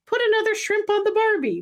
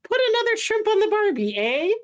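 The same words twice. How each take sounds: First: High, put-on voice without a real accent; failed Australian attempt, pitched way up; imitated wife's non-accent. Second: Put-on high-pitched, half-hearted Canadian accent; badly faked Canadian with a tacked-on "eh?"; mock Canadian accent. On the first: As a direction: quote the wife in a much higher voice. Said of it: "but not really with an accent". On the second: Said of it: "Can you do a Canadian accent?".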